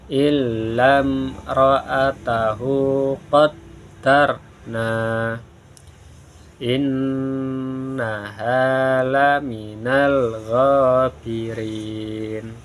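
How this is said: There is a stop after qaddarna. "Yang pertama berhenti atau wakaf"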